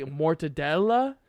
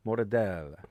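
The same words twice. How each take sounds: First: "mortadella" with the final A fully sounded, questioning; full final A. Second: "Mortadella" rolled off as mortadell; final A dropped. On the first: Friend challenging the pronunciation, "mortadella" with clear final A. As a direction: say every syllable of "mortadella", ending in A. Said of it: "Italians don't say". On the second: Italian American explaining pronunciation, "Mortadella" without its final A. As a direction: cut "Mortadella" off after the L. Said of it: "the emphasis is not on the A". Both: Shown as a demonstration.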